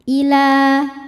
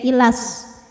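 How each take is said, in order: First: The vowel after the L is held long. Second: The vowel after the L is cut short. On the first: The reader stops after this word. "Panjang dua harokat apabila kita berhenti" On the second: The reader continues into the next word. "lamnya dibaca pendek"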